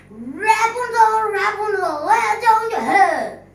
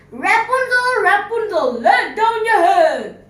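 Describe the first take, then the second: First: High, loud call up the tower. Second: Calling out. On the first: Prince imitates the witch's call. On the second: Prince calls up the tower. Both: Acted. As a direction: call up to the window.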